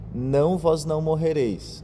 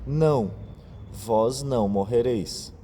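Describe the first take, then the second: First: It runs on without a pause after 'não'. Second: There is a clear pause after 'não'. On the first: The sentence is hard to understand for listeners. The speaker calls it wrong. "Se a gente não fizesse a vírgula depois do primeiro não, ficaria estranho" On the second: The serpent first answers no, then contradicts the warning. The speaker calls it right. "a vírgula faz toda a diferença na frase"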